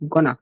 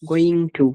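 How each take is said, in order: First: The two words are blended into one short word. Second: Both words are said fully and separately. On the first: "আমরা বলবো গোনা" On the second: "গোয়িং টু না বলে"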